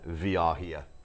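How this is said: It is said with a German accent.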